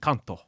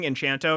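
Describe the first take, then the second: First: The middle consonant is a 'k' sound. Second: The middle consonant is a 'ch' sound. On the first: The speaker calls it right. "He even like gave a little flair" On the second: The speaker calls it wrong. "I kept saying Enchanto because I thought there was an H there"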